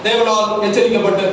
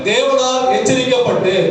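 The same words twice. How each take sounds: First: The phrase is read lightly, without emphasis. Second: The phrase is read with strong, heavy emphasis. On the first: The warning is passed over without notice. The speaker calls it wrong. "இதை நம்ம மேலோட்டமாக வாசிக்கிறோம்" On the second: The warning is taken seriously. The speaker calls it right. "நல்லா stress பண்ணி வாசிங்க"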